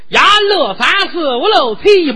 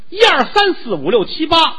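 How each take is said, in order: First: The numbers are counted in a local dialect. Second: The numbers are counted in standard Mandarin.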